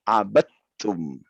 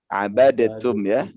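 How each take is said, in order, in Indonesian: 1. Bunyi d menyatu menjadi t yang dobel. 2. Bunyi d diucapkan terpisah dengan sedikit memantul. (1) "di sini kenapa dia dimasukkan ke ta?" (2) "Harusnya kan abadetum. Dal kan dia eh, kolkolah"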